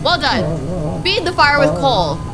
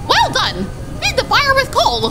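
First: It is read in the speaker's own normal voice. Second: It is read in a put-on character voice.

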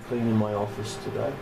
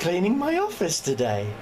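First: The voice sounds flat and unenthusiastic. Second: The voice sounds forced and overly cheerful. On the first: The speaker does not want to do it. "Can you hear the joy in my voice?" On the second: The speaker pretends to be glad to do it. "That's me trying to be happy"

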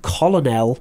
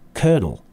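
First: The word is said with three syllables, like 'col-o-nel'. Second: The word is said with two syllables, like 'kernel'. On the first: The speaker calls it wrong. "looks like it should be colonel" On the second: The speaker calls it right. "but the pronunciation is colonel"

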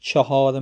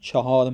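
No difference in how they are said.

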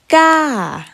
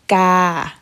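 First: The pitch falls over the syllable. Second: The pitch stays level at a middle height. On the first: "Falling tone" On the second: "Middle tone"

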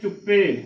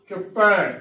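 First: The word ends in a closed 'e' vowel. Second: The word ends in an open 'ai' vowel. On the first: The speaker calls it wrong. "ਇਹ ਵੀ ਗਲਤ ਉਚਾਰਨ ਹੈ" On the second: The speaker calls it right. "ਪੱਪੇ ਨੂੰ ਦਲਾਮਾ ਪੈ"

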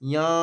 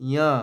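Both takes have the same delivery.

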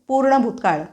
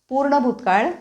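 No difference in how they are said.

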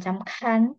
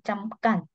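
First: The k sound has a puff of air. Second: The k sound has no puff of air. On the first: The speaker calls it wrong. "bukan camkan" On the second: The speaker calls it right. "tapi camkan"

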